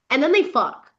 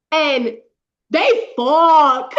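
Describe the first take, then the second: First: Said in the usual way. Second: THEY FUCK belted loud and high; loud, drawn-out cry on "fuck"; emphatic excited repeat. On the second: Real, not acted. Reader telling friend the couple finally got together, emphatic excited repeat. Gleeful repeat of the big moment.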